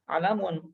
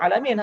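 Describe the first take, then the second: First: The final syllable has a u vowel. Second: The final syllable has an i vowel. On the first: The speaker calls it wrong. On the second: The speaker calls it right.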